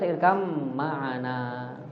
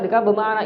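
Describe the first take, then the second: First: The 'b' merges into the following 'm'. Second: The 'b' is clearly pronounced before the 'm'. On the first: "thoriq B baca irkam ma'ana" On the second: "Thoriq A baca irkab bermakna izhar"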